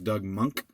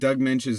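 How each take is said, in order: First: The surname is said like 'monk'. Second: The surname is said like 'mensch'. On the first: The speaker calls it right. "is actually pronounced Doug Monk" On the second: The speaker calls it wrong. "since I've been saying Doug Mensch since I was eleven years old"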